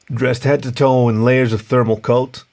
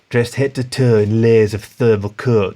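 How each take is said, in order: First: It is read in an American accent. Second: It is read in a Yorkshire accent. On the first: The speaker calls it right. "Armstrong's definitely American" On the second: The speaker calls it wrong. "Can I do Yorkshire?"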